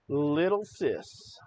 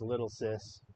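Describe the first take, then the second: First: Slow, drawn-out taunt; mocking nickname. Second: Said in the usual way. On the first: Real, not acted. Host taunting Harry Sisson with his nickname, mocking. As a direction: draw out LITTLE SIS, teasingly.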